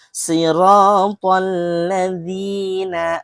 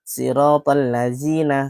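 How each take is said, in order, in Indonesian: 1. Konsonannya adalah bunyi lembut seperti th. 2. Konsonannya adalah bunyi z yang mendesis. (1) "lidahnya itu dikeluarkan sedikit di antara gigi kita"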